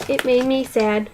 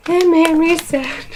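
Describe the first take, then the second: First: Said in the usual way. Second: "It made me sad" higher and louder, punching "it"; stressed "it" in a raised, emphatic repeat. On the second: Shown as a demonstration. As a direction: say it again, louder, insisting. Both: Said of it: "repeated with emphasis".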